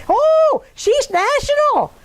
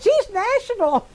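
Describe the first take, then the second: First: Very high, drawn-out mock awe; mock-impressed teasing. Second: High, slow teasing imitation; mock-impressed teasing. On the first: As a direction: tease with a loud, high "Oh". Teasing retold quote of Swami. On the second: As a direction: draw it out high, poking fun. Repeats Swami's teasing line.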